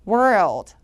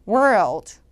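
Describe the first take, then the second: No difference in how they are said.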